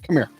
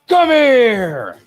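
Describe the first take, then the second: First: It is said in a casual normal voice. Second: It is said in a growling Scorpion voice.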